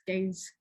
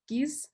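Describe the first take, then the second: First: The word rhymes with 'days'. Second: The word rhymes with 'peace'. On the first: This is the actual title. The speaker calls it right. "but it is in fact The Gaze, as in gaze" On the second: This was a first misreading of the title. The speaker calls it wrong. "I pronounced it as geese, as in geese"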